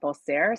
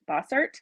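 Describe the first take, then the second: First: It is said the French way, without a final 't'. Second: It is said as spelled, ending in a 't'. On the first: "if I add a little bit of a French to it" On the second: "if I go phonetically"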